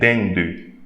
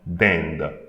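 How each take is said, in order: First: A vowel sound follows the final D. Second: The word ends on the D, no vowel. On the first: The speaker calls it wrong. "don't say dinde" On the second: The speaker calls it right. "I'm pronouncing the D but not the E"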